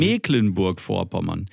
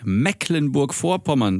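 First: „Mecklenburg-Vorpommern“ mit gedehntem e wie „Meeklenburg“; langes e. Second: „Mecklenburg-Vorpommern“ mit kurzem, offenem ersten e; kurzes e. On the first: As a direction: dehn das erste e in „Mecklenburg-Vorpommern“ wie in See. (langes, geschlossenes e in „Mecklenburg-Vorpommern“) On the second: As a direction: sag das e in „Mecklenburg-Vorpommern“ wie in Deck. (kurzes e in „Mecklenburg-Vorpommern“, als Gegenbeispiel) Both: Shown as a demonstration. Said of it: "das E wird lang ausgesprochen".

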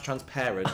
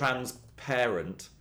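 First: "transparent" run together with a short a, as in parrot; "transparent" as the ordinary adjective, short middle vowel. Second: Very slow "transparent", second half like parent. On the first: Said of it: "pronounced transparent". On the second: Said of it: "it's meant to be". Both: Shown as a demonstration.

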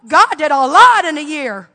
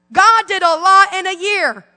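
First: Said in the usual way. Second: "God did a lot in a year" slower, stress on "God"; emphatic repeat. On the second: Shown as a demonstration. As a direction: lean on "God", slow the whole phrase.

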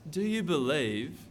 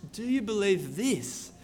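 First: Said in the usual way. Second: "Do you believe this" with the weight landing on "this"; stress on this. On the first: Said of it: "the critical question isn't". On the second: Shown as a demonstration. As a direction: lean hard on "this" to single it out.

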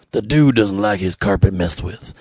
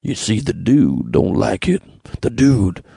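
First: Lightly voiced lower, laid-back Dude; a lazy, lightly done Big Lebowski voice; bad Dude impression. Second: A hint of The Dude, lower and slow; half-hearted lazy Dude voice; bad Dude impression. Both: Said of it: "It's a very bad impression".

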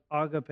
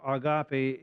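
First: "agape" stressed up front, AH-guh-pay; first pronunciation of agape. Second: "agape" stressed mid-word, ah-GAH-pay; second pronunciation of agape. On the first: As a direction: hit the first syllable of "agape". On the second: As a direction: hit the middle syllable of "agape". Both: Shown as a demonstration. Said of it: "agape or agape".

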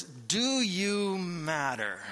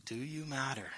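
First: Slow, drawn-out question, each word weighed; slow searching question. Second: Much softer, hushed and inward; soft repeated question. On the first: Pastor slowly asks the congregation a weighty question. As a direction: ask slowly and let it hang. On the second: Pastor quietly asks the congregation again whether they matter. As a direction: ask it again almost under your breath. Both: Real, not acted.

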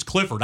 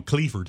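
First: Said in the usual way. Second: "Cleaford" with a long ee in the first syllable; nickname pronunciation. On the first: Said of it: "his name's Clifford". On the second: Shown as a demonstration. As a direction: say "Cleaford" to start like "clee". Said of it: "I do call him Cleaford".

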